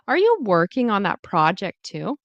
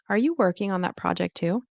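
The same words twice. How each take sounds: First: It is said slowly with exaggerated, overdone delivery. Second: It is said at a natural, everyday speed. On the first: "that's exaggerated" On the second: "I think I'm going to start saying it naturally now"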